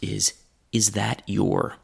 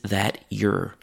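First: Every word is said fully and clearly. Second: The vowel in "your" is weakened. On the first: "That group of words is that your?" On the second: "A slightly less formal pronunciation of this"

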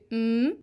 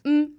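First: The pitch rises on the syllable. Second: The pitch stays level on the syllable. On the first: It is the syllable of the word meaning in-laws. "une intonation qui est montante, ça fait m" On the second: It is the syllable of the word meaning taro. "une intonation qui est plate. M"

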